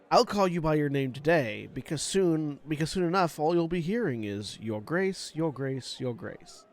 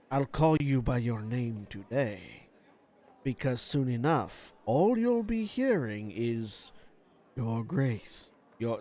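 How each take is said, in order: First: It is said in a light, sarcastic tone. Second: It is said slowly, low and melancholic.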